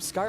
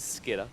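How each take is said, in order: First: The name is said with a long 'eye' vowel. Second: The name is said with a short 'i' vowel. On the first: The speaker calls it wrong. "someone keeps calling him Skyer" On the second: The speaker calls it right. "for those that don't know, it is Skidder. That is in fact his name"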